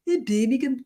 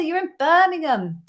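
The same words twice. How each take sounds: First: Hammed-up Brummie accent; Birmingham accent. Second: Said in the usual way. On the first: Shown as a demonstration. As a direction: put on a bad Birmingham accent. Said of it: "That's my Birmingham accent".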